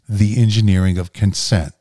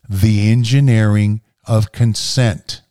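First: It is said at a normal speed. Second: It is said more slowly.

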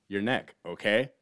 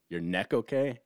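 First: There is a pause before okay. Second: It runs on without a pause.

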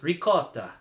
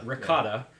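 First: It is said in an Italian accent. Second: It is said in an American accent.

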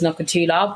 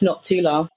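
First: A vowel is heard between the k and t. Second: No vowel is heard between the k and t. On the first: The speaker calls it wrong. "Everyone says Nokutula, but the U is actually silent" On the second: The speaker calls it right. "so it's Noctula"

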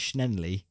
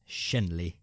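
First: The name is said with an extra N sound. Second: The name is said without an extra N sound. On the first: The speaker calls it wrong. "You're putting an extra N in there. You're saying Schenley" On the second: The speaker calls it right. "I think it's Schenley"

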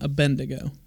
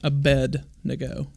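First: The N sound comes before the D sound. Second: The D sound comes before the N sound. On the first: The speaker calls it wrong. "Not Abednego" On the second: The speaker calls it right. "just for clarification, Abednego. The D comes first in his name"

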